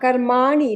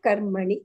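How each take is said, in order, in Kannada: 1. 'karm' ನಂತರದ ಸ್ವರ ದೀರ್ಘವಾಗಿದೆ. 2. 'karm' ನಂತರದ ಸ್ವರ ಹ್ರಸ್ವವಾಗಿದೆ. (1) "ದೀರ್ಘ ಇಲ್ದೇ ಇರೋ ಕಡೆ ಅಂತ ಹೇಳಿದ್ರಿ" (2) "ಇಲ್ಲ ಕರ್ಮಣಿ"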